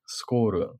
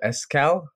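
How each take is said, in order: First: The name is said with a Japanese-style pronunciation. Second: The name is said with an English-style pronunciation.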